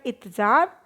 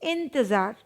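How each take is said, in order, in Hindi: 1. पहले अक्षर में कोई अनुनासिक ध्वनि नहीं है। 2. पहले अक्षर में अनुनासिक ध्वनि है। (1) "यहाँ पे लिखा है इत्जार" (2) "होना क्या चाहिए?"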